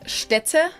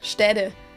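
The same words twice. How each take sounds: First: The middle consonant is a crisp T. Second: The middle consonant sounds like a soft D. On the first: "instead of Städte" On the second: "she also says like Städte"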